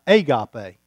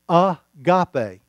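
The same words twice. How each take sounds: First: The word begins with a different, reduced vowel. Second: The word begins with an open 'ah' sound. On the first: It is the common English pronunciation. The speaker calls it wrong. "not agape" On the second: It follows the Greek pronunciation of the letters. The speaker calls it right. "it's like agape"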